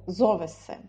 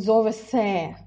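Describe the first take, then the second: First: The stress falls on the first syllable. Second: The stress falls on the last syllable. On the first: The speaker calls it right. "надо поставить ударение на зо" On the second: The speaker calls it wrong. "не надо говорить зовесе"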